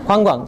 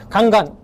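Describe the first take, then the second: First: The vowels glide from a w-sound. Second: The vowels are plain, without a w-glide. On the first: The speaker calls it right. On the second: The speaker calls it wrong.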